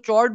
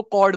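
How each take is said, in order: First: "चॉर्ड" with a ch sound at the start, as in chair; pronounced with CH. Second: "कॉर्ड" with a hard k sound at the start; pronounced with K. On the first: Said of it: "अक्सर लोग उसको चॉर्ड बोलते हैं". ("चॉर्ड" को शुरू में च की आवाज़ से बोलें) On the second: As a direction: say "कॉर्ड" starting like "card" or "cord", not with ch. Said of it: "कुछ लोग उसको कॉर्ड बोलते हैं". ("कॉर्ड" को शुरू में क की आवाज़ से बोलें) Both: Shown as a demonstration.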